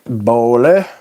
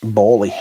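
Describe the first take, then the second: First: "Bowley" said loud with a questioning rise; trying the pronunciation. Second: "Bowley" said loud, without the questioning rise; correct pronunciation. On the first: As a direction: try out "Bowley", lifting the end. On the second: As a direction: state "Bowley" as the settled pronunciation. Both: Shown as a demonstration. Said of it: "That's right".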